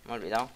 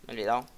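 No difference in how they are said.

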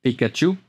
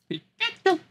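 First: Said in the usual way. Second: Pikachu cry. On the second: Pretend.

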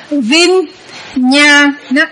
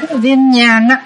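First: Vinyana very slowly, a gap between vin, nya and na; stretched-out teaching model of Vinyana; syllable by syllable. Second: Said in the usual way. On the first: Shown as a demonstration. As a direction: break Vinyana into three drawn-out syllables. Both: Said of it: "Chỉ có cái từ Vinyana là bạn đọc thành".

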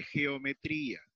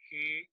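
First: Said in the usual way. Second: Syllable by syllable. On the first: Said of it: "Entonces digo". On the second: Shown as a demonstration. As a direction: say "geometría" with a long pause after every syllable. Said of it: "hay que separar".

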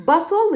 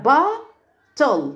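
First: Said in the usual way. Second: "bottle" broken into long ba, then tol; split into syllables. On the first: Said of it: "bottle اللي هي الزجاجة". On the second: Shown as a demonstration. Teacher divides bottle for pupils, syllable by syllable. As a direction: sound out "bottle" in two separate beats. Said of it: "مقسمينها ل bottle".

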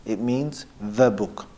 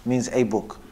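First: Slow, with weight on "the"; single out the article "the" before book; stress on THE. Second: "a" said as a full, separate "ay"; stress on A. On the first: Teacher explaining the definite noun, slow stress on "the". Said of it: "if you said al-kitab". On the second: Teacher explaining the indefinite noun, stress on "a". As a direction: lean on the article "a", said "ay". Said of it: "if you said kitab". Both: Shown as a demonstration.

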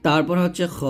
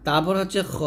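The two takes are said the same way.

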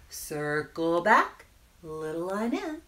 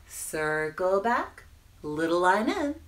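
Both takes have the same delivery.

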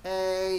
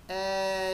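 First: E clipped short so the glide merges toward A; quick diphthong demonstration; faster demo. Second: E drawn out slowly, gliding from E to I; slow diphthong demonstration; slow demo. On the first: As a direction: say E quickly, almost like one A sound. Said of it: "nhanh hơn này". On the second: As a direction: stretch the E slowly into the I. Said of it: "đọc chậm nó sẽ là". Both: Shown as a demonstration.

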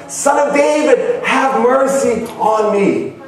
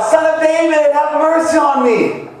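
First: High call, drawn out at the end; crying out more insistently. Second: High-pitched pleading call; crying out. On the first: Preacher retelling the desperate blind man's second cry, insistent high call. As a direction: cry it out high, stretching the plea. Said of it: "He cried even louder". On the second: Preacher retelling the blind man's cry to Jesus, crying out high. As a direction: call out for mercy in a raised, ringing voice. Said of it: "He cried out". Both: Retold or imitated.

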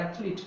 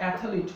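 First: Athlete as "ATH-leet", no middle vowel; correct pronunciation. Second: Athlete as "ATH-a-leet", extra middle vowel; mispronunciation. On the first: Teacher correcting it with but athlete, correct pronunciation. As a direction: keep athlete to two syllables. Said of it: "but athlete". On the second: Teacher warning learners with not athlete, mispronunciation. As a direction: break athlete into three syllables. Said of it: "not athlete". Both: Shown as a demonstration.

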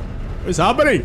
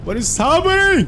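First: Higher-pitched mock Indian accent. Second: Loud, high-pitched mock Indian accent. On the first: Streamer putting on an accent for viewers, higher Indian accent. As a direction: put on an excited Indian accent. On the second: Streamer hamming it up for viewers, louder Indian accent. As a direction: exclaim it in an exaggerated Indian accent. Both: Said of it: "Indian accent. That you do that".

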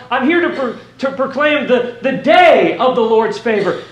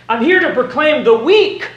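First: "day" hit hard, then falling away; stress on day. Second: "week" held up on a rise; stress on week. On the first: Preacher quoting what Jesus doesn't say, stress on "day". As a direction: punch "day" as the point of contrast. Contrasting day with week and year. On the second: Preacher quoting what Jesus doesn't say, stress on "week". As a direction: lift "week" as the point of contrast. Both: Acted.

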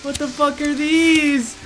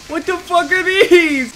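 First: High, slow, stretched question; alarmed disbelief. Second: Higher, louder, drawn-out question; horrified cry. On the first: Player finding bodies in the cave, alarmed high voice. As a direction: draw it out in rising alarm. Finds horrifying things in cave. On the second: Player finding hanging bodies, loud horrified cry. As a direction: wail it slowly in horror. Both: Real, not acted.

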